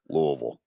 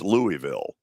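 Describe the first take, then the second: First: It uses the local residents' pronunciation. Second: It uses the common outsider pronunciation. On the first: This is how people who live there say it. "But when you're there" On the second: This is how many people elsewhere say it. "For a lot of people, it's"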